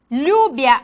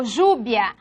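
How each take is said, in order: First: "Lluvia" begun with an ly glide, "lyuvia". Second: "lluvia" begun with a buzzing zh, "zhuvia". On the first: Teacher showing variants of double L, ly sound. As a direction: say "Lluvia" with L plus y. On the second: Teacher showing variants of double L, zh sound. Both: Shown as a demonstration. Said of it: "la L o E".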